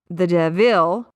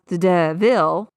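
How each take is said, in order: First: The stress is on the second syllable of devil. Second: The stress is on the second syllable of devil.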